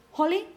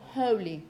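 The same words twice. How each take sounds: First: "Holy" said with a short "o", as in "holly"; short vowel holly. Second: "holy" with a long "oh" diphthong, HOH-lee; long vowel holy. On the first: Teacher contrasting the short-vowel word for students, "Holy" as HOL-ee. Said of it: "short vowel". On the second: Teacher contrasting the long vowel for students, "holy" as HOH-lee. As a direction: stretch the vowel in "holy" into a full "oh". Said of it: "which is long". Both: Shown as a demonstration.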